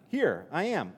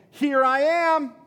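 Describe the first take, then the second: First: Said in the usual way. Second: Higher, louder, slow triumphant call; joyful announcement. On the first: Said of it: "popping out and saying". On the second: Acted. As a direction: announce yourself with delight, stretching it out. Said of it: "Jesus is saying".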